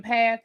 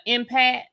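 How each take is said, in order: First: Empath with a clear th at the end; correct pronunciation. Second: Empath said as "empa", with no th at the end; imitating mispronunciation. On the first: Shown as a demonstration. Host showing how empath should be said. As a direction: say empath properly, with the th. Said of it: "you didn't say the word correctly". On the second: Host mimicking Stormi saying empath without the th. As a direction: drop the th: "empa". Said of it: "she mispronounced the word".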